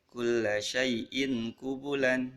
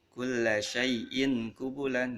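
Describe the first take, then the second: No difference in how they are said.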